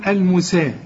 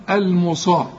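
First: المسا with plain s, fronted "al-musee"; read as seen. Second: المصا with heavy emphatic s, "al-musaa"; read as sad. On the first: Teacher shows the reading if seen were on top, light seen. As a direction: keep the س and vowel of المسا thin. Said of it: "لو السين فوق". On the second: Teacher reads the letter written on top, heavy sad. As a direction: thicken the ص and vowel of المصا. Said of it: "فالحرف اللي فوق". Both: Shown as a demonstration.

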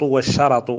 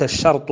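First: والشرط as "wash-sharat", ra with fatha; والشرط with two short a vowels, "sharat". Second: الشرط as "shart", no vowel after ra; الشرط in one closed syllable, "shart"; sukun on the ra. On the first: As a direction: open the ra with an "a" in والشرط. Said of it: "بفتح الراء". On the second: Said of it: "فالشرط بسكون الراء". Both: Shown as a demonstration.

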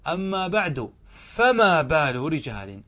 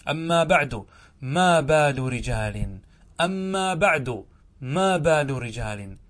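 First: "فما بال" slow, bringing out the فاء; slow corrected form. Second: "ما بال" slow and stressed, without the فاء; slow quotation. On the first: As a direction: say "فما" clearly and slowly. (إبراز الفاء في "فما") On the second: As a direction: recite it slowly, leaning on "ما". (تلاوة بطيئة مع نبر "ما") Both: Shown as a demonstration. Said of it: "كان القياس أن يقول ماذا؟".

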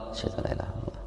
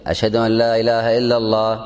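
First: The line again in a soft whisper; whispered repeat. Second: Full-voiced sung call to prayer; chanted adhan line. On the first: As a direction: hush it down to a whisper. (همس خافت بالشهادة) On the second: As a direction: sing it out like a muezzin. (chanted, ترتيل الأذان بصوت مرتفع) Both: Shown as a demonstration. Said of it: "هذا ترجيع".

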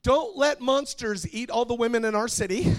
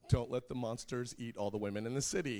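First: High, very loud mock pleading; child's shouted prayer. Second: Said in the usual way. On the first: Younger daughter praying for Daddy's attention, high loud shout. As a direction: belt it out like a little kid showing off.

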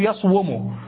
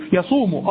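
First: يصوم as yaṣwumu, the waw carrying its own u; original underlying form. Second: Said in the usual way. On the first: Shown as a demonstration. Teacher repeating the original form of يصوم for the class, carefully sounded. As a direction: pronounce يصوم as yaṣ-wu-mu, w clearly voiced. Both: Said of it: "أصله".

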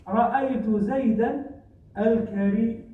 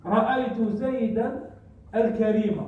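First: الكريم as al-karīmu, ending drawn out on -mū; nominative ending. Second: الكريم as al-karīma, ending in a short -a; accusative ending. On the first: Teacher showing the detached adjective option, nominative ending. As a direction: hold a long "muu" closing الكريم. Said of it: "ولك أن تقول". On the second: Teacher showing the adjective agreeing with zaydan, accusative ending. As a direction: close الكريم on a falling "-ma". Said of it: "نعت". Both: Shown as a demonstration.

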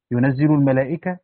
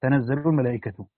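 First: ينزل with u on the ya and i on the zay; majority reading. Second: تنزل with an a on both ta and zay; Yaqub's reading. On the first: Teacher shows students the majority's Quran reading, ينزل as "yunazzilu". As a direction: read ينزل as "yunazzilu", الملائكة ending in -a. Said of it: "قرأ العامة بضم الياء وكسر الزاي". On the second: Teacher shows students Yaqub's variant reading, تنزل as "tanazzalu". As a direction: read تنزل as "tanazzalu", الملائكة ending in -u. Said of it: "وقرأ يعقوب بالتاء وفتحها". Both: Shown as a demonstration.

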